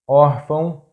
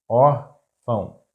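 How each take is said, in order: First: Órfão as one word, stressed on ÓR; stress on accented syllable. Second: Órfão slowly split, ór - fão; syllable by syllable. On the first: Teacher giving a two-accent example, órfão stressed on ÓR. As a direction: say órfão joined up, leaning on the first syllable. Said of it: "the stressed syllable is that one". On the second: Teacher breaking down an example word, órfão slow in syllables. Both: Shown as a demonstration.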